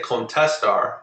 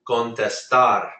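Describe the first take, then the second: First: The stress falls before the last syllable. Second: The stress falls on the last syllable. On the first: The speaker calls it wrong. "I don't say contestar" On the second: The speaker calls it right. "I say contestar"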